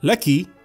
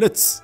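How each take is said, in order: First: The final consonant is a plain k sound. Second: The final consonant is a ts sound. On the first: "كاف مكسورة كي" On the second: "أو لتس"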